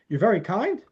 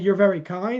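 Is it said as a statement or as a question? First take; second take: question; statement. First: It is said as a wondering question. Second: It is said as a plain statement.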